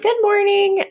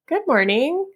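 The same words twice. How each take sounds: First: The greeting sounds friendly and nice. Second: The greeting sounds unsure and confused.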